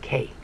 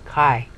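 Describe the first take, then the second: First: The vowel sounds like 'eh'. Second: The vowel sounds like 'eye'. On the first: This is the modern pronunciation. "today they say this is K. They just swallow, they just ignore the I" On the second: This is the older pronunciation. "so it's I. Therefore you say this is Kai"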